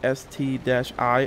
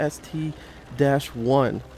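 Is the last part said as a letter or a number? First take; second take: letter; number. First: The last part is said as the letter I. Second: The last part is said as the number one. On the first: The speaker calls it wrong. "I'm now corrected by you guys" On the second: The speaker calls it right. "It's actually called the S T one"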